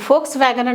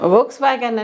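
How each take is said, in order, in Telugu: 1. ఈ పేరు f శబ్దంతో మొదలవుతుంది. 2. ఈ పేరు v శబ్దంతో మొదలవుతుంది. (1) "వాళ్ళు ఫోక్స్ వ్యాగన్ అని ఫ అని పలుకుతారు" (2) "మనం వోక్స్ వ్యాగన్ వి అని ఉంది కదా!"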